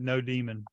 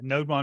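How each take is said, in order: First: The word is split as no plus demon. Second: The word is split as node plus mon. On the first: The speaker calls it wrong. "I had always pronounced that no demon" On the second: The speaker calls it right. "NodeMon makes so much more sense"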